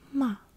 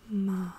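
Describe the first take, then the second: First: The pitch starts high and falls. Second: The pitch dips low, then rises. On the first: It means scold. "you start out at a higher, higher tone, but then you go downwards" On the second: It means horse. "I'm raising or like lowering my voice first"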